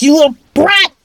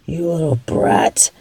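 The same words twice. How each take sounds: First: Angry yell. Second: A low, unvoiced whispered insult; whispered curse. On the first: Acted. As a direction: yell the insult in frustrated rage. Blinded villain yells at victim. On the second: Villain curses victim under breath.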